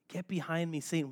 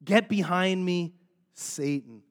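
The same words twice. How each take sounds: First: Said in the usual way. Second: Firm, measured rebuke, dropping on the last word; acted stern dismissal with a pause before the name; harsh rebuke. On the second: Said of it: "It seems harsh".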